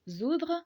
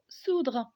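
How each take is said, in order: First: The word begins with a buzzing z sound. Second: The word begins with a hissing s sound. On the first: The S stands between two vowels. "on va le prononcer Z et donc zoudre" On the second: The S stands between a consonant and a vowel. "on va le prononcer S et donc soudre"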